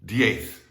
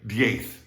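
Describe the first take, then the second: First: The final sound is a th sound. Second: The same.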